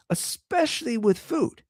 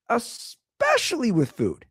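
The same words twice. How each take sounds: First: Mock earnest. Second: Higher, slow Especially with food; mock earnest repeat. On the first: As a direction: sell the claim with a wink. Comic emphasis on openness. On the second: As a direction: lean in slowly on it. Comic repeat.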